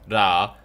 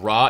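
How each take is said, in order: First: The r is a light, L-like tongue sound. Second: The r is a hard English-style r. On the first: The speaker calls it right. "it's more of an L" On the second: The speaker calls it wrong. "instead of ra"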